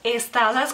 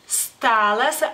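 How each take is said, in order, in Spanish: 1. Se añade una vocal e antes de la s. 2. La palabra empieza directamente con el sonido s.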